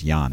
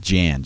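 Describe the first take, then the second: First: The name is said the Dutch way. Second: The name is said the English way. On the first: The speaker calls it right. "but I think it's Jan. I think it's probably Dutch" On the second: The speaker calls it wrong. "Some people pronounce it Jan, J-A-N"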